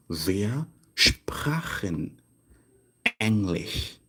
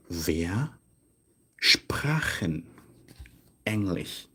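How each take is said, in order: Both takes have the same delivery.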